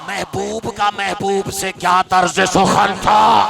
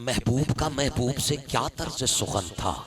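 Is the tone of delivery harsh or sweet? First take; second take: harsh; sweet. First: The line is delivered in a harsh, bitter tone. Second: The line is delivered in a softer, sweeter tone. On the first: "तेरा लहजा जरा सा तल्ख है" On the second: "जरा सा लहजा बदल लेता हूं"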